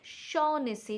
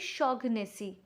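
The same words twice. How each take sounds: First: The 'gh' in the middle is silent. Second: The 'gh' in the middle is sounded. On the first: The speaker calls it right. "the G H, that pronunciation will be uh, omitted, like Shaughnessy" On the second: The speaker calls it wrong. "It will never be Shaughnessy"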